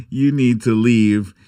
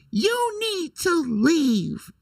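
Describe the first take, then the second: First: Said in the usual way. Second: High, slow, drawn-out "You need to leave"; catchphrase clip voice. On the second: Retold or imitated. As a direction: stretch it out up high like the famous clip. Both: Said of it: "my little sound clip".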